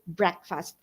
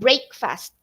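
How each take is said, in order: First: The first syllable is short, like 'brek'. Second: The first syllable sounds like the word 'brake'. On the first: The speaker calls it right. "that is breakfast" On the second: The speaker calls it wrong. "not breakfast. Okay, we don't say break and then fast"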